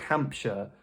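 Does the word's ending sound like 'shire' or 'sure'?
sure. The ending is a short, reduced 'sure' sound. It sounds British and natural. The speaker calls it right. "we say Hampshire"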